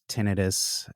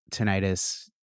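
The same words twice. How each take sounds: First: Tinnitus with stress up front, TEN-uh-tus; second pronunciation. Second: Tinnitus with stressed long i, tuh-NIGH-tus; alternative pronunciation. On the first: Speaker adding the other accepted form, tinnitus as TEN-uh-tus. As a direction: say tinnitus as TEN-uh-tus, unstressed middle syllable. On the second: Speaker covering both accepted forms, tinnitus as tuh-NIGH-tus. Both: Shown as a demonstration. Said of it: "you can say both".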